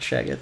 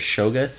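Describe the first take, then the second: First: The first vowel is an 'a' sound. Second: The first vowel is an 'o' sound. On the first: The speaker calls it wrong. "not Shaggoth. not A" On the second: The speaker calls it right. "it's Shoggoth or Shoggoth, Like O"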